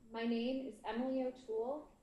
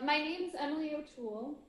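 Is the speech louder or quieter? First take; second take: quieter; louder. First: The speech is quieter and sounds distant. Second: The speech is louder and projected. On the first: The speaker calls it wrong. "it sounds like you're arguing from the bottom of a deep well" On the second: The speaker calls it right. "If I speak louder"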